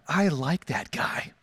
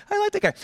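First: Deliberate, lower-pitched verdict; slow, low approval. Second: Much higher, gushing approval; high-pitched enthusiasm. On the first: Husband to wife about the parent who helped, slow low approval. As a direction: let it out slowly and low, weighing each word. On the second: Husband gushing to wife about the helpful parent, high-pitched enthusiasm. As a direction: pitch it way up, delighted by the man. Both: Retold or imitated.

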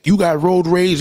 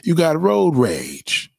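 First: "You got road rage" pitched higher and louder, a preaching jab; raised accusation. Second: "You got road rage" said very slowly, each word weighed; slow accusation. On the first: Calling out road ragers in a heated, higher preaching voice. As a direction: fire it off as a charge. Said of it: "Hate is hate". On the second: Telling the raging friend off, slowly and deliberately. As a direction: lay it down slow and heavy. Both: Acted.

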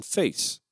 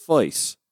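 First: "face" with a standard ay vowel, softer; young speakers' pronunciation. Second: "face" with the vowel opened toward eye, like fice; older Georgian pronunciation. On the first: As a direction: say "face" the modern way, rhyming with case. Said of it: "But the youngest speakers use". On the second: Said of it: "older Georgians pronounce the word prize as". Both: Shown as a demonstration.

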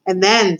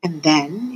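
First: Prisoner leading into his confession, falling tone; "And then" as a statement, falling on "then"; hesitant confession. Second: "then" lifted into a questioning rise; "And then?" as a gentle, coaxing echo; encouraging question. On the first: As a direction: land on "then" and let it fall. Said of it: "said the man". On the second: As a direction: prompt him onward, rising on "then". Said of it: "encouraged Roscuro". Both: A narrator's reading.

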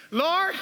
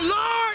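First: Tentative call with rising tone; questioning Peter. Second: High, forceful cry to God; shouted call. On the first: Acted. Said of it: "Peter said". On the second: Shown as a demonstration. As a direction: shout it out to lead the congregation. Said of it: "Somebody shout".

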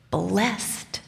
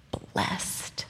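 First: Said in the usual way. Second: Soft whispered Blessed, breath only. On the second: Acted. Mary softly echoing Elizabeth's blessing, whispered. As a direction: breathe the word Blessed like a secret.

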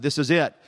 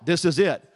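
First: Southern accent. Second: Said in the usual way. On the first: Shown as a demonstration. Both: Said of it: "That's no accent to that".

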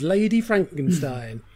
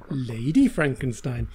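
First: Said in the usual way. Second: Low, slow repeat of the title; mock-dramatic title. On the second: Shown as a demonstration. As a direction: savour the lurid title, dropping low. Title repeated for comic effect.

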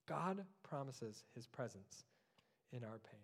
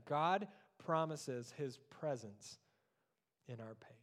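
First: Quieter echo, dropping away at the end; hushed repetition; softer repeat. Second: Slow, weighty, each word given room; solemn preacher emphasis; slow emphatic statement. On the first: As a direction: say it again, softly, to let it sink in. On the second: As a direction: let the promise land slowly. Preacher slowly states key promise. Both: Acted.

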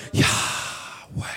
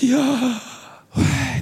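First: Yahweh whispered as pure breath, no voice; breathed name. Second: Yahweh as a high, sighing out-breath; breath sound. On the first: Preacher shows the congregation God's name as breath, whispered. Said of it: "Remember the word Yahweh?". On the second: Preacher imitates every human breathing, high sigh. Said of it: "any human that breathes goes". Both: Shown as a demonstration.

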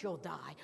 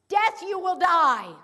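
First: Said in the usual way. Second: "Death" hit hard, loud and high, then "you will die" falling; emphatic. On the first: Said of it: "Not just". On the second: Shown as a demonstration. Preacher rendering God's command, loud and emphatic. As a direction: thunder the warning, louder. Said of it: "a really emphatic phrase".

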